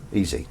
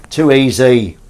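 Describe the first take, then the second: First: Said in the usual way. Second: Louder, smug repeat; smug loud brag. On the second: Real, not acted. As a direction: crow it louder.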